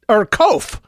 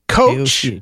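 First: It rhymes with loaf. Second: It sounds like the word coach. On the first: "to rhyme with loaf" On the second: "like a person who leads a basketball team"

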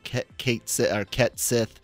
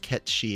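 First: The second word is said like 'sith'. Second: The second word is said like 'shee'. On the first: The speaker calls it wrong. "I think that's how they said they're going to pronounce it" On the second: The speaker calls it right. "It should be, like I said, I think it's Ket Shi"

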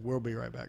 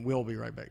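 First: The word we'll has an r-like sound in it. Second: The word we'll has no r-like sound in it. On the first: The speaker calls it wrong. "we almost put an R in there" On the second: The speaker calls it right. "now I'm saying it correctly"

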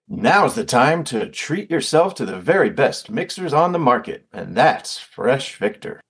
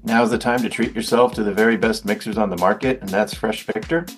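First: It is said with showy ad-style flair. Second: It is said plainly, without flair.

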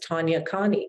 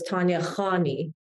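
First: The surname starts with a plain hard k. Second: The surname starts with a throaty kh. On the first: The name is said the way most Americans say it. The speaker calls it wrong. "I would never correct anyone. It would just be like, oh" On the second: The name is said the way it is meant to be said. The speaker calls it right. "the KH in most Middle Eastern languages is pronounced kha"

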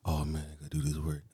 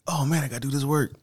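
First: It sounds reluctant and burdened. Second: It sounds eager and excited.

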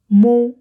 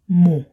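First: The word is said on a flat tone. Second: The word is said on a low tone. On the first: It means I. "Mo has a somewhat flat tone" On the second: It means I am. "while mu has a lower tone"

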